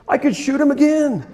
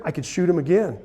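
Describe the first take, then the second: First: Higher and louder, laughing through the words; laughing delight. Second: Said in the usual way. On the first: Real, not acted. Telling the audience he could reshoot the deer, laughing. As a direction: let the joy spill out in a laugh.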